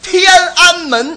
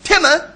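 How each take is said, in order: First: Every syllable is said in full, standard Mandarin. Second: The middle syllable is swallowed, Beijing style.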